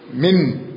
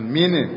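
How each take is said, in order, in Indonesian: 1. N di akhir ditahan tanpa pantulan. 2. N di akhir dilepas dengan pantulan. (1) "Ditempelkan ke atas lidahnya" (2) "jangan min"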